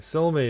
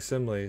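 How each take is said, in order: First: The name begins with 'sil' and ends with 'mee'. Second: The name begins with 'sim' and ends with 'lee'. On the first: The speaker calls it right. "Silmy is what it" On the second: The speaker calls it wrong. "I was saying Simley"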